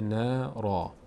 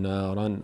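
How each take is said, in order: First: The word ends with a long 'a' sound. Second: The word ends with an 'n' sound. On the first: The reciter stops on this word. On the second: The reciter continues without stopping.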